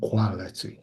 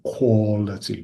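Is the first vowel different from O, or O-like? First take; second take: different; O-like. First: The first vowel is not an O sound. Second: The first vowel sounds like an O. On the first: The speaker calls it wrong. "rather than quality" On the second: The speaker calls it right. "more of an O sort of sound"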